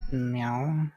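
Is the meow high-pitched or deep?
deep. It is a deep voice saying the word.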